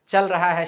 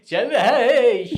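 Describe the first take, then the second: First: It is said in a plain, everyday voice. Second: It is said in a showy announcer's voice. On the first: "normal भी बोल सकते हैं" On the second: "हमेशा ऐसे ही"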